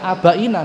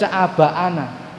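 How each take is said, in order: First: The vowel before -na is an 'ee' sound. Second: The vowel before -na is an 'ah' sound. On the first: The speaker calls it wrong. "tidak boleh dibaca abaina" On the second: The speaker calls it right. "harus dibaca abaana"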